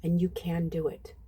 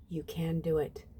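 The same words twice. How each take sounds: First: Said in the usual way. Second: Said again much softer, as a gentle reassurance; softer repeat. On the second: Shown as a demonstration. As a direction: let the encouragement drop to a soft hush.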